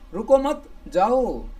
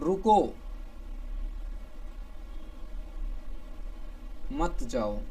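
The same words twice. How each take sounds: First: There is a pause after the second word. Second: There is a pause after the first word. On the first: Don't stop, go. "रुको मत, यहां पे coma लगाया" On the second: Stop, don't go.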